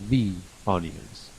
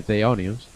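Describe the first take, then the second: First: 'The' is said with a long 'ee' vowel. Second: 'The' is said with a short 'uh' vowel. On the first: The speaker calls it right. "if the next word begins with a vowel, you pronounce the onions" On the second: The speaker calls it wrong. "It's not a big error to say the onions"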